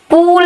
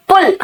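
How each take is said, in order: First: पूल with a drawn-out oo; long oo in पूल. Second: पुल with a short, quick vowel. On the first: Teacher showing what she did not say, long-vowel पूल. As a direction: stretch the vowel of पूल, higher. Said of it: "पूल नहीं कहा मैंने". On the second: Teacher showing students the right पुल, short vowel. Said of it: "तो मैंने कहा पुल, पूल नहीं कहा". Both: Shown as a demonstration.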